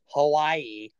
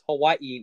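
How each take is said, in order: First: The last two vowels run together without a catch. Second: A glottal catch separates the last two vowels. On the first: The speaker calls it wrong. "not Hawaii" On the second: The speaker calls it right. "because there's an apostrophe between the I's, so it is Hawaii"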